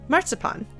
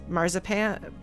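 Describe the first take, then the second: First: The middle consonant sounds like ts. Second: The middle consonant sounds like a plain z. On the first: The speaker calls it wrong. "the German pronunciation put through an American or Canadian accent" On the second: The speaker calls it right. "The English pronunciation of the word"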